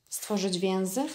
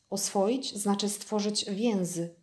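First: "więzy" lifted into a questioning rise; puzzled echo. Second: Calm, slow statement with "stworzyć więzy" falling at the end; fox's measured statement, "więzy" landing flat and final; slow explanation. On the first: Prince echoes puzzled. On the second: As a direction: spell the idea out slowly to the prince. Fox explains a new word. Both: Acted.

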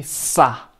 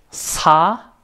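First: "sa" with a long hissed, tense s. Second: "sa" with a light, relaxed s; plain normal SA. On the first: Teacher showing students that sound, tense hissed sa. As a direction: hold the s, then a short tight a. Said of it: "es tensa". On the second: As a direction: say sa easily, vowel lifted. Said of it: "piensa que sa normal". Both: Shown as a demonstration.

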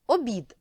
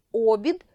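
First: Обід said as обі́д, stress on the final і; stress on the last syllable. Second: Обід said as о́бід, stress on the opening о; stress on the first syllable. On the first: Teacher demonstrating meal-sense stress обі́д to pupils. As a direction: say обід with the weight on -бід. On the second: Teacher demonstrating wheel-rim stress о́бід to pupils. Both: Shown as a demonstration. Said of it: "наголос іноді може змінювати значення слова".

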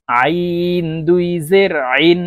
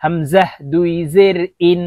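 First: Slow আইন squeezed from the middle of the throat; pressed mid-throat ain. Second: হামজাহ recited evenly, ইন with a clean glottal start; clean hamza. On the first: Teacher modelling for learners, long pressed আইন from mid-throat. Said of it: "আইন চাপ দিয়ে নিচের দিকে". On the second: Teacher modelling for learners, হামজাহ then a plain glottal ইন. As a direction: start ইন crisply on the bare vowel. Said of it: "হরফের উচ্চারণ হামজার উচ্চারণ". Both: Shown as a demonstration.

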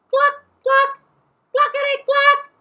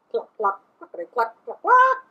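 First: Very high, loud screechy clucks; parrot mimicking chickens. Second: Chicken clucking. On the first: A narrator's reading. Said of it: "all parrots do". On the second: Shown as a demonstration. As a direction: cluck like a hen, ending on a squawk. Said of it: "Can you cluck like a chicken?".

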